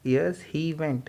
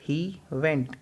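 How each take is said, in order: First: Said in the usual way. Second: Very slow, stretched word by word; slow drill. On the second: Shown as a demonstration. Teacher slowly modelling the answer for students. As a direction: spell it out slowly for beginners. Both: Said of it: "fast बोलना है इसको".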